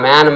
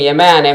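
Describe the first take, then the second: First: The word begins directly with the m sound. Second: The word begins with an extra vowel before m. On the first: The speaker calls it right. "మా" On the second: The speaker calls it wrong. "ఎక్కడైనా పలుకుతున్నామా? లేదే"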